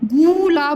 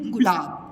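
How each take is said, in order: First: The first vowel is drawn out long. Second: The first vowel is said short and quick. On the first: The speaker calls it wrong. "गुलाब नहीं" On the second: The speaker calls it right. "तो जल्दी से उच्चारण हुआ इसका ना"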